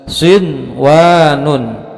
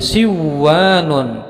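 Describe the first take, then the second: First: The n is pronounced clearly before the w. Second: The n is dropped and merged into the w. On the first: The speaker calls it right. "harus dibaca dengan jelas" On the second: The speaker calls it wrong. "tidak boleh dibaca menjadi siwanun"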